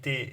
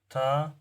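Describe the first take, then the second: First: The letter name is said another language's way. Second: The letter name is said the Arabic way. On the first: The speaker calls it wrong. "It is incorrect in Arabic" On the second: The speaker calls it right. "it was the correct uh, pronunciation"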